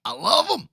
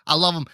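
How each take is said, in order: First: Pitched way up, gushing over the food; high mock gush. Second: Said in the usual way. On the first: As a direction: squeal it like a fan. Opening bit, high sing-song repeat.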